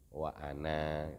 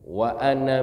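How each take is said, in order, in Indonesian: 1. Vokal akhir dari ana dibaca panjang. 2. Vokal akhir dari ana dibaca pendek. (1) "kalau wakof dia dibaca panjang" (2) "kalau wasol ini pendek semua"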